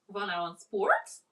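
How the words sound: The voice rises at the end.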